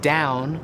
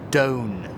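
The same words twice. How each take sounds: First: The diphthong starts from an open position. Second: The diphthong starts from a central position. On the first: This is the modern pronunciation. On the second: This is how it was said in Shakespeare's time.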